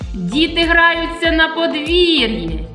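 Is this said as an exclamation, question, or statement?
exclamation. It is said with raised, exclamatory intonation. It expresses strong feeling about what is happening. "А якщо я скажу з підвищеною інтонацією"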